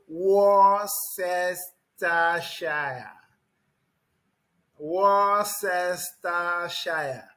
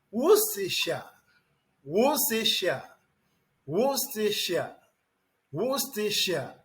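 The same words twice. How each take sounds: First: Worcestershire slowly read out as WOR-CES-TER-SHI-RE, letter by letter; wrong spelling pronunciation. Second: Worcestershire said WUSS-ti-sha, short and clipped; correct pronunciation. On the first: Retold or imitated. Teacher mocking pupils who stumble over the spelling. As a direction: sound out Worcestershire wrongly, syllable by syllable. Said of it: "Is that the correct pronunciation? No". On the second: Shown as a demonstration. Teacher giving the right form after the wrong one. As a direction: say Worcestershire as WUSS-tuh-shuh. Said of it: "it is pronounced".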